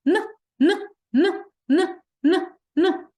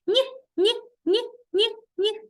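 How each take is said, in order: First: Short hard "н", repeated apart; isolated non-palatalized "н", high and punchy; hard Н sound. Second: Short soft "ні", palatalized, repeated apart; soft Н sound. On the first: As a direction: say each "н" hard, as a separate burst. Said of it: "Твердий чи м'який?". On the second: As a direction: say each "ні" as a high, soft-consonant burst. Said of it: "М'який". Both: Shown as a demonstration.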